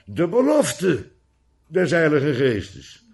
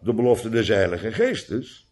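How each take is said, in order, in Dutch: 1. Het woord belofte heeft een sterke nadruk. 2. Het woord belofte heeft geen bijzondere nadruk. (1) "Zodat je moet lezen, ... maar" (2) "niet maar"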